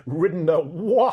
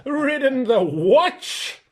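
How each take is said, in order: First: Breaking into a laugh mid-line; laughing repeat. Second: Slow, high, loud whinny through the words; neighing contempt. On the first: Reader repeats the horse's line, laughing. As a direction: reader cracks up re-saying it. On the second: Horse scorns Shasta for only riding a donkey, neighing. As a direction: let the question come out as a scornful neigh. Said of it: "it came out in a sort of neigh". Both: Acted.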